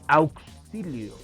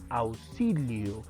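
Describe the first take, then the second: First: The middle consonant sounds like k plus s. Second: The middle consonant sounds like a plain s. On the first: This is not how people normally say it. The speaker calls it wrong. "no decimos auxilio" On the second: This is how people normally say it. The speaker calls it right. "a veces suena como si fuese una Z, S. ¿Por qué? Porque nosotros decimos auxilio"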